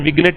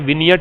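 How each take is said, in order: First: A g sound is pronounced in the middle. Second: The g is silent in the middle. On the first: The speaker calls it wrong. "इसका pronunciation विग्नेट नहीं है" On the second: The speaker calls it right. "विनियट है। इसमें जीन silent रहता है"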